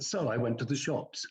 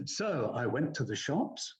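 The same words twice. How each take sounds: First: "So I went to the shops" with a falling end like a plain statement; downward inflection. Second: "So I went to the shops" said with a rising end like a question; statement turned up at the end; questioning inflection. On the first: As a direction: settle it down at the end. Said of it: "downward inflection". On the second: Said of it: "So they'll go". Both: Retold or imitated.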